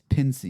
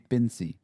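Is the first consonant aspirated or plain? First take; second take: aspirated; plain. First: The first consonant has a puff of breath. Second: The first consonant has no puff of breath. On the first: The speaker calls it right. "you're putting the H sound in there" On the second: The speaker calls it wrong. "Otherwise, it would be Pinsy"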